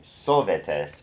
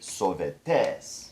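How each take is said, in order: First: The last syllable is not stressed. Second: The last syllable is pushed and stressed. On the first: The speaker calls it wrong. "Instead of saying sovetes" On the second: The speaker calls it right. "we're going to actually push that last syllable"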